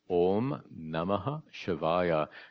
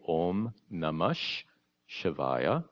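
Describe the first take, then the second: First: Namah ends in a separate -ha before Shivaya. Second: Namah merges into a double sh sound.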